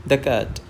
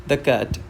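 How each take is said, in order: The two takes are said the same way.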